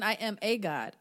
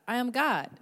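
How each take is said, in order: First: Said in the usual way. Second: "I am God" stated firmly, stronger on "God"; corrected affirmation. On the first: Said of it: "Not even". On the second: Shown as a demonstration. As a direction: declare "God" with conviction, no hedging. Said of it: "Not even "I am a god".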